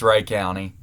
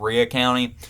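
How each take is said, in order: First: The first word sounds like 'Ray'. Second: The first word sounds like 'Ree-uh'. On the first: The speaker calls it right. "but it's Ray County" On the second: The speaker calls it wrong. "sorry if I pronounced the name wrong"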